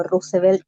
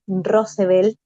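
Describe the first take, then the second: First: "Roosevelt" said with a u, ROO-se-velt; first syllable of "Roosevelt" as "ru"; alternative pronunciation. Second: "Roosevelt" said with an o, ROH-se-vel; first syllable of "Roosevelt" as "ro"; alternative pronunciation. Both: Shown as a demonstration. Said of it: "no sé cómo se pronuncia".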